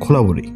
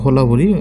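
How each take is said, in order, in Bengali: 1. শব্দটি একটি kh ধ্বনি দিয়ে শুরু হয়। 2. শব্দটি একটি সাধারণ h ধ্বনি দিয়ে শুরু হয়। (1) "সঠিক উচ্চারণ হবে যে খোলাবরি" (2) "তাদের ওই এলাকার ভাষায় হোলাবরি"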